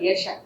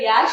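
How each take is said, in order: First: The first vowel is kept short. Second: The first vowel is drawn out long. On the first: This is the name's real pronunciation. The speaker calls it right. "It's just simple ಯಶ" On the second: Other people mispronounced the name this way. The speaker calls it wrong. "ಎಲ್ಲ ಯಾಶ ಮಾಡ್ಬಿಟ್ಟಿದ್ರು"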